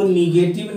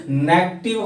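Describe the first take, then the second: First: नेगेटिव said as "ni-GAY-tiv", three syllables; wrong pronunciation. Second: नेगेटिव shortened to "NEK-tiv"; correct pronunciation. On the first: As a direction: say नेगेटिव with a long middle "gay", as nee-gay-tiv. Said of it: "इसको नेगेटिव नहीं पढ़ेंगे". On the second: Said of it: "इसका सही उच्चारण नेगेटिव होता है". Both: Shown as a demonstration.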